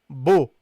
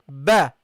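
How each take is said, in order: First: The vowel is said with rounded lips. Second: The vowel is open with unrounded lips. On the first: The speaker calls it wrong. "You don't say bo" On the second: The speaker calls it right. "You open only your mouth"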